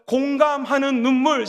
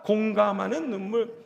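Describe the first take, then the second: First: Slow, deliberate call to repeat; slow model phrase. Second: Said in the usual way. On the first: Shown as a demonstration. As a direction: lead the congregation slowly. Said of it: "한번 따라해볼까요?". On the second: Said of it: "시작".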